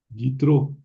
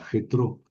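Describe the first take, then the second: First: The name begins with a soft Y sound. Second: The name begins with a harsh throaty sound. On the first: This is closer to the original pronunciation. The speaker calls it right. "habría que pronunciar Yitro" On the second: This follows the Spanish transliteration. The speaker calls it wrong. "Las Biblias en español ponen con J"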